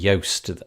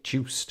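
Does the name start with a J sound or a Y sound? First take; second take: Y sound; J sound. First: The name begins with a Y sound. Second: The name begins with a J sound. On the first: "I think it might even be Yoast is, is the pronunciation of his name" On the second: "I always say Juiced"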